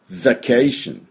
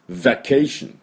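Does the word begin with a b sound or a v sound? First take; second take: v sound; v sound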